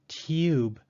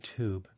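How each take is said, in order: First: It is said with a Y sound, British style. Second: It is said without a Y sound, American style.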